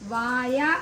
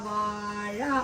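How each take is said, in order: First: The middle consonant is a plain y sound. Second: The middle consonant is a retroflex zh sound. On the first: The speaker calls it wrong. "വായ അല്ല" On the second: The speaker calls it right. "ഉച്ചാരണം ശ്രദ്ധിക്കൂ"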